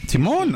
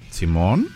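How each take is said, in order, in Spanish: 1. Se dice con entonación de afirmación simple. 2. Se dice con entonación dudosa, de comprobación. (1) "afirmación" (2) "¿Estás seguro?"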